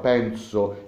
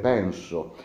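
First: The s after n sounds like a z. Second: The s after n is a clear s. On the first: The speaker calls it wrong. "la NS che troppo spesso noi cambiamo in NZ" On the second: The speaker calls it right. "invece di dire penso"

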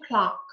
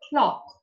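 First: It is said with an American accent. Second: It is said with a British accent. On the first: "American English-ում clock" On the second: "British-ում ինքը կա clock"

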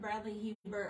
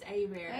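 First: The name is said as 'hee-bert'. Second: The name is said as 'a bear'. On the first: The speaker calls it wrong. "I've called Bradley Hebert all the time" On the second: The speaker calls it right. "and it's A-Bear"

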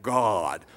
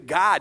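First: The word is drawn out in a preacher style. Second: The word is said plainly and briefly. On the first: The speaker calls it right. "You got to go God" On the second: The speaker calls it wrong. "you say God just doesn't cut it"

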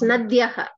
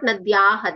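First: The vowel after the 'y' is short. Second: The vowel after the 'y' is long. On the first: The speaker calls it right. "It's Nadyaha" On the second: The speaker calls it wrong. "It's not Nadyaha"

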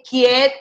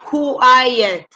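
First: The u is not sounded after the k. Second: The u is sounded as w after k. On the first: The speaker calls it wrong. "no se dice quiet" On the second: The speaker calls it right. "se dice quiet, la U suena"

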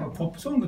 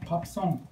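First: Japanese style: 'poppu songu', with an 'o' vowel. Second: English style: 'pap son', with an 'a' vowel. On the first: "日本語ではポップソングって言うでしょ" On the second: "向こうはパップソン"

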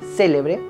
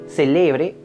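First: The stress is on the first syllable. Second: The stress is on the middle syllable. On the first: It means something famous. "y si está en la antepenúltima sílaba" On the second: It is a verb in the present tense. "Si el acento está en la penúltima sílaba"

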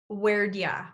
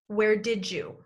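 First: It is said as 'where'd ya', with 'did' reduced to 'd' and 'you' to 'ya'. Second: It is said as 'where didja', with 'did' and 'you' linked into 'didja'. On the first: "the third way we're going to link and reduce where did. Where'd" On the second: "The second way we link and reduce did you to sound like did you?"

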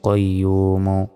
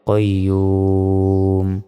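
First: The word ends with a short final vowel. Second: The word ends on the consonant m. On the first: The recitation continues without stopping. "মিম পেশমো কইয়ুমো" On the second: The reciter stops at this word. "থামলে কইয়ুম"

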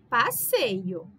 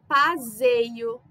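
First: The middle consonant is a hissing S sound. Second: The middle consonant is a buzzing Z sound. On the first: "com dois S's, a gente lê passeio" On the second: "O S ficaria com som de Z"

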